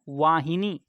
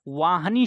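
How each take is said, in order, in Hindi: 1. h ध्वनि के बाद छोटी i स्वर आता है। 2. h ध्वनि के बाद कोई स्वर नहीं आता। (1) "छोटी की मात्रा जब आप लगेंगे लगाएंगे तो ये शुद्ध रूप होगा।" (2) "वाहनी शब्द गलत है।"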